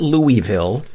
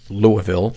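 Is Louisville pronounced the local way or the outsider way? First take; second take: outsider; local. First: The city name is said the outsider way. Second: The city name is said the local way. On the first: The speaker is not from the city. The speaker calls it wrong. "not Louisville. You can always tell somebody's not from Louisville when they pronounce it Louisville" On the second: The speaker is from the city. The speaker calls it right. "a guy who wants to be referred to as Kevin from Louisville"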